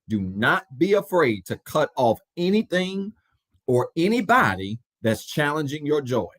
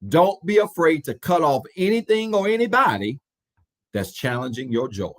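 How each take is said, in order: First: It is said slowly and deliberately. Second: It is said at a normal pace.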